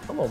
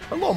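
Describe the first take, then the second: First: The voice sounds flat with little emotion. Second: The voice sounds lively and full of emotion. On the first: The speaker calls it right. "He didn't have that much emotion in his voice. It was like" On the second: The speaker calls it wrong. "Or, no, he didn't have that much voice in his"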